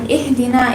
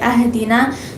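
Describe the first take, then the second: First: The word starts with an 'i' vowel. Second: The word starts with an 'a' vowel. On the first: The speaker calls it right. "instead of saying ihdina" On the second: The speaker calls it wrong. "if you say ahdina, so changing up the harakat"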